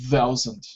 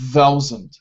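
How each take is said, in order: First: It begins with a soft unvoiced th. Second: It begins with a hard sound. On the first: The speaker calls it right. "So this is the unvoiced. Yeah. The soft one" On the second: The speaker calls it wrong. "Not uh"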